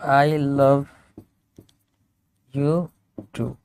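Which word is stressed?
love. The word love carries the strongest stress. The speaker loves the person as well as other things. "ये इसको भी emphasise कर सकता है"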